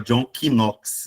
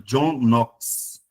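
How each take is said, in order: First: Knox begins with a K sound. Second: Knox begins with an N sound. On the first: The speaker calls it wrong. "não é John Knox" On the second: The speaker calls it right. "Esse K, ele é mudo"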